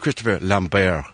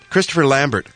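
First: The name is said with a foreign pronunciation. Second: The name is said with an English pronunciation.

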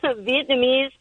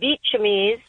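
First: The middle of the word sounds like 'nam'. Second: The middle of the word sounds like 'cham'. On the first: The speaker calls it right. "And then Vietnamese" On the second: The speaker calls it wrong. "she says Vietchamese"

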